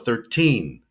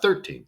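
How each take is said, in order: First: The stress is on the second syllable. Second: The stress is on the first syllable. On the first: The speaker calls it right. "we want to stress the teen" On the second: The speaker calls it wrong. "not thirteen"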